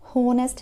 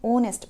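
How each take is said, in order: First: The word begins with an audible h sound. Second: The word begins with a vowel, h silent. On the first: The speaker calls it wrong. "होनेस्ट नहीं है ये" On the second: The speaker calls it right. "इसको आपने ओनेस्ट पढ़ना है"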